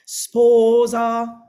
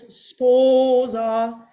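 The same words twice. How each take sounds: First: "Sposa" with both syllables hit equally hard, loud; two equal punches. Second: "sposa" with a leaning first syllable, falling onto a light second; long-short lilt. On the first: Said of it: "two of the same notes, sounds punch, punch". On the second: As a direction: sing "sposa" long then short, slow and loud. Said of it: "what you want to hear is sposa". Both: Shown as a demonstration.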